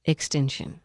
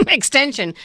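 First: Extinction with a clear ink sound; title said right. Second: Extension with ten, not tink; laughing mispronunciation. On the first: Correcting the movie title, saying Extinction. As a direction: Extinction said low and careful. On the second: Joking wrong title, saying Extension. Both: Shown as a demonstration.

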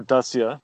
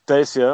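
First: Dacia said as DAH-see-uh; alternative pronunciation. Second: Dacia said as DAY-see-uh; alternative pronunciation. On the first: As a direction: say Dacia with an open AH in front. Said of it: "but probably incorrectly". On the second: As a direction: say Dacia with a long AY in front. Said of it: "I think I'm pronouncing it correctly". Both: Shown as a demonstration.

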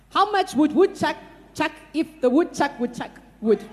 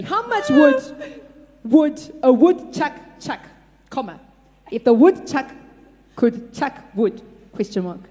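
First: Said in the usual way. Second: Spaced out, each chunk on its own; slowly. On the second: Shown as a demonstration. Slow dictation for the blindfolded typist. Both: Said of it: "let me say that slowly".

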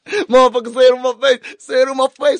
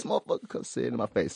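First: Very high, loud mock challenge; over-excited outburst. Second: Soft, whispery mock challenge; hushed repeat. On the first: Host carried away riffing on charges, over-excited. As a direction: yell it high, hyped up and playful. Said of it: "got a bit excited over there". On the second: Host winding down from an outburst, hushed. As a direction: drop it right down under the breath.

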